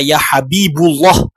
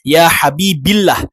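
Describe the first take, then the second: First: The vowel after Habib is u. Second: The vowel after Habib is i. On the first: "dia tidak dibaca" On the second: "atau tidak dibaca"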